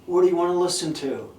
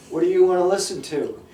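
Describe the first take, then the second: First: Quick, raised, put-on voice asking a friend; mock fast high question. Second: Higher, louder, rushed put-on voice; repeated mock question. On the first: Driver asking his friend about music, quick and raised. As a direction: rattle it off high like a bored driver. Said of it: "and I'd be like". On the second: Driver pressing his friend for music, louder and quicker. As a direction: fire the question off again, impatient. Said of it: "I go".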